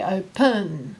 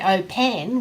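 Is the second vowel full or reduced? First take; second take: reduced; full. First: The second syllable has a weak 'uh' vowel. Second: The second syllable has a full 'eh' vowel. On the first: The speaker calls it right. "We say open" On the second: The speaker calls it wrong. "We don't say eh. We don't say open"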